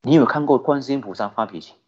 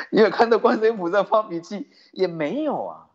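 First: Said in the usual way. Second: Asked through a chuckle, higher; amused repeat of the question; laughing. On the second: Real, not acted. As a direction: tease the crowd with a laugh in the voice. Same question repeated, now laughing.

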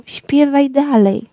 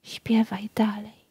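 First: Said in the usual way. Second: Breathless whisper of death. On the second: A narrator's reading. Death whispering to the nightingale, hushed. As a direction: breathe the words, no voice at all. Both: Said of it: "szepcząc".

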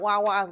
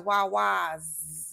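First: "Wawa's" said as plain "Wawa", the final S dropped; wrong way, no S. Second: "Wawa's" said "Wy-wahz" with a clear final S. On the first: Correcting viewers on the store name, first the wrong plain "Wawa". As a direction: say "Wawa's" the way outsiders do, without the S. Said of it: "You gotta add a S". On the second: Telling viewers the right way, "Wawa's" with the S stressed. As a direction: lean on the S at the end of "Wawa's". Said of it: "put some emphasis on it". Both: Shown as a demonstration.

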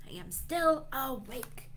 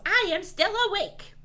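First: Higher but unraised grumble; milder mad complaint. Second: High, loud, quick yell; mad yell. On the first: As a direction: repeat the complaint without yelling. Yelled line repeated more calmly. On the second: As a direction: yell it like a fed-up dragon. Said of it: "One mad dragon yells". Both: A narrator's reading.

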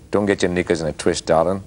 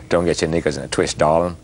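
First: Nasal Aussie accent. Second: American-sounding Aussie attempt. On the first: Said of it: "if I speak it in a nasal way". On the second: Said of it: "Oh, that was American". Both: Shown as a demonstration.

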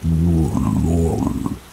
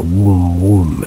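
First: Very slow, drawn-out demonic drone. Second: Mock demonic moan, drawn out; first rough imitation of a demon's hum, not deepened. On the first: Retold or imitated. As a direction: imitate a demon's groan, stretching each sound out long. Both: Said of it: "in this deep demonic voice".

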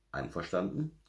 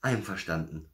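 First: "Einverstanden" as a question with rising end. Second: "Einverstanden" as a little bear's answer; murmured agreement. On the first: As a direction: ask "Einverstanden" to get agreement. Santa asks the bear to agree. („Einverstanden“ fragend, am Ende steigend) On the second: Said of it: "murmelte Berti". („Einverstanden“ als leicht gemurmelte Antwort) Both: A narrator's reading.

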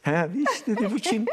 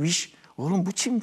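First: Repeating the aunt's Erzurum dialect with a higher lift on bu kim; playful Erzurum dialect, bu kim pitched up. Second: Aunt's Erzurum dialect, lightly imitated. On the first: Retold or imitated. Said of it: "O Erzurum şivesiyle". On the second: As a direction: mimic the aunt's Erzurum dialect, a little higher. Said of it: "O Erzurum şivesiyle dedi ki".

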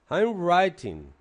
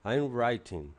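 First: "I'm writing" drawn out slowly and loudly, every sound clear; slow, careful pronunciation. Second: Said in the usual way. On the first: Shown as a demonstration. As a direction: spell out "I'm writing" slowly for the class, loud and deliberate. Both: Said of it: "También hay que aprender a pronunciar".

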